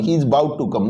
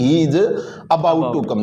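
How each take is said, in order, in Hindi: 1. 'about' का पहला स्वर बहुत छोटा है। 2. 'about' का पहला स्वर पूरी तरह बोला जाता है। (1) "यानी अ इसमें बहुत छोटा है" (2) "नहीं कि he is अबाउट to come"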